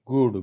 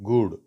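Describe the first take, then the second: Both takes have the same delivery.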